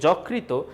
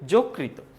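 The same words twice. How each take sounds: First: The first vowel is an open o sound. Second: The first vowel is a closed o sound. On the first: The speaker calls it wrong. "এটা কিন্তু ভুল" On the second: The speaker calls it right. "সঠিক উচ্চারণ বলতেছি"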